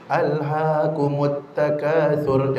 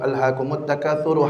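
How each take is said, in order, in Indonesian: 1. Bacaannya lambat dan panjang-panjang. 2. Bacaannya agak cepat. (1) "baca surahnya lama" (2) "bacanya agak dicepatkan"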